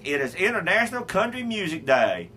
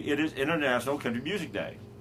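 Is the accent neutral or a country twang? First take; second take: country twang; neutral. First: Spoken in an exaggerated country twang. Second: Spoken in a plain, neutral accent.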